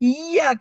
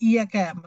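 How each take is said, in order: First: The middle 'y' sound is pressed hard and held. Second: The middle 'y' sound is said lightly, not pressed. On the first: It means 'you alone'. The speaker calls it right. "அந்த சத்த வந்து அழுத்தி சொல்லணும்" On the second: It means worshipping the sun. The speaker calls it wrong. "ஈயாக்கன்னு சொன்னா சூரியனை வணங்குறீங்க"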